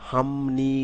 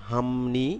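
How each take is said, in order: No difference in how they are said.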